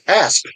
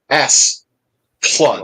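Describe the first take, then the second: First: The first syllable ends on the P sound. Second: The first syllable ends on the S sound. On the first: The speaker calls it right. "but it's Asp Lund" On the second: The speaker calls it wrong. "they'll always say S Plund"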